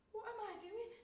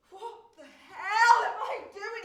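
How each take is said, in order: First: Said in the usual way. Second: Bellowed self-reproach, much louder and higher; shouting "What the hell" at herself; furious shout. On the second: Acted. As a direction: tear into yourself at full volume. Bursts out at herself.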